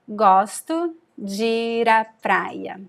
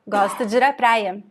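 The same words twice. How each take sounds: First: The sentence is said at a slower pace. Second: The sentence is said at a faster pace.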